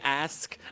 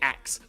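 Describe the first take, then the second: First: The word ends with an 'sk' sound. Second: The word ends with a 'ks' sound. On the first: "I don't say ask" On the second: "I say ax"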